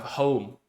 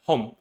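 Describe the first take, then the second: First: "home" with the full gliding O-U diphthong before the M; "home" said the English way, O sliding into U; standard home. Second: "home" said with one pure O vowel, no glide to U; "home" clipped to a single flat O, like a Cantonese speaker; simplified home. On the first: Therapist gives the target English "home" for contrast. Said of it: "instead of home". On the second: Therapist shows the simplified Cantonese-style "home". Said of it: "we simplify it in our brains and we call it home". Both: Shown as a demonstration.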